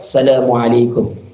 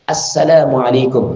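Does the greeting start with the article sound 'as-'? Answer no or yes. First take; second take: no; yes. First: The greeting starts without the article sound 'as-'. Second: The greeting starts with the article sound 'as-'. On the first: The speaker calls it wrong. "Bukan cuma" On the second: The speaker calls it right. "harus dipastikan ada alif lam ta'rifnya"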